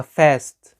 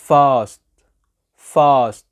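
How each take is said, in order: First: "fast" with a front short "a" as in "cat"; "fast" with a flat "ae" vowel, no "ah"; American fast. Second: "fast" with a long "ah", as "faahst"; "fast" said with the vowel of "father"; British fast. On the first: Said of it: "في الأمريكان بينطقوها". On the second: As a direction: model British "fast" loudly, vowel drawn out. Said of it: "هتقولي ده بريتش". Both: Shown as a demonstration.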